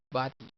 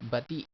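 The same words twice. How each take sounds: First: Bati with BA stressed; "bati", light final syllable; stress on first syllable. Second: Bati with TI stressed; "bati" weighted on the final syllable; wrong stress. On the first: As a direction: lean on the opening, BA-ti. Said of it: "It's bati". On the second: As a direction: misplace the stress, ba-TI. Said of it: "not bati". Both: Shown as a demonstration.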